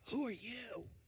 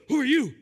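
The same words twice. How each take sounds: First: It sounds hushed and secretive. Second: It sounds startled and surprised. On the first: He wants nobody else to hear. "Maybe he was trying to keep it on the down low, like" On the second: He did not expect anyone there. "maybe he was surprised, like, oh"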